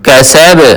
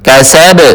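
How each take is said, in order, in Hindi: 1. अंतिम b झटके के साथ छोड़ा जाता है। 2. अंतिम b झटके के साथ छोड़ा जाता है।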